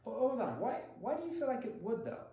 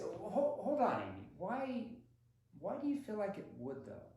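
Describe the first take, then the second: First: Higher pitched, doubting why do you feel; mock-doubtful hold on; skepticism. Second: Doubtful, higher pitched hold on, Amy; playful skeptical challenge; skepticism. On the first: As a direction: push back with curious disbelief. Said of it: "My skepticism?". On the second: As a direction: question it with gentle disbelief. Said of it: "See my tonality there? My skepticism?". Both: Shown as a demonstration.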